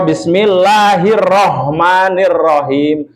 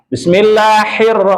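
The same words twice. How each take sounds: First: Slow, dragged Bismillahirrahmanirrahim; overly slow mistaken recitation; dragged wrong reading. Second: Fast, hurried Bismillahirrahmanirrahim; hasty mistaken recitation; rushed wrong reading. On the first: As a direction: drag it out too slowly. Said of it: "Itu juga sudah keliru". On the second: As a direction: rush through it carelessly. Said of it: "itu sudah keliru". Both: Shown as a demonstration.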